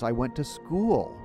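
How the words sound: The word school carries the stress.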